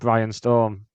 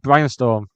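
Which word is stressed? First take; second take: Storm; Brian. First: The stress is on Storm. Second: The stress is on Brian.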